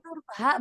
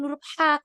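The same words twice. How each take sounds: First: "ha" as the plain light h of Ihdinas. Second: "ha" as the stronger throaty Arabic h; wrong heavier ha. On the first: Teacher reminding student of the letter, light ha. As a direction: say "ha" as a soft glottal h. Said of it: "bukan huruf ha kalau di Ihdinas". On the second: Teacher showing the letter to avoid, throaty ha. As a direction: push "ha" out from the throat. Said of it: "Ingetin aja itu huruf ha". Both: Shown as a demonstration.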